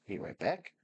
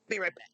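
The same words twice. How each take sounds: First: Said in the usual way. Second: Higher, louder quick call. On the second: Real, not acted. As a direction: call it out as you leave.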